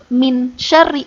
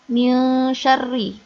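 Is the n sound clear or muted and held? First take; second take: clear; muted and held. First: The n sound is said clearly and plainly. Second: The n sound is muted and held briefly. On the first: The speaker calls it wrong. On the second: The speaker calls it right. "nunnya dibaca samar. Agak ditahan sebentar"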